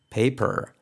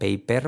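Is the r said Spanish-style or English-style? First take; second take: English-style; Spanish-style. First: The r is said with the tongue raised. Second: The r is said Spanish-style. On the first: The speaker calls it right. "Simplemente es poner la lengua arriba en tu paladar" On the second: The speaker calls it wrong. "mal pronunciada"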